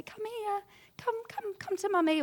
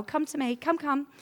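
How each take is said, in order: First: Put-on much higher, cooing call to a crying child; mother calling a fallen child, high and cooing; soothing mummy voice. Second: Higher, brisk teacher's beckon; a teacher beckoning a hurt child, a bit higher; teacher calling a child. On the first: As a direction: coax a hurt toddler into your arms. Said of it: "we open our arms and we say". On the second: Retold or imitated. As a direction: call the pupil over kindly but firmly. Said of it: "you know, I'm a teacher as well".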